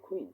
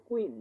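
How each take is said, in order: First: কুইন as "khween"; aspirated K. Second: Said in the usual way. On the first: Shown as a demonstration. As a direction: puff of air after the k in কুইন. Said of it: "উচ্চারণ হবে কি?". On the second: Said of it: "আমরা কি পড়ে আসছি".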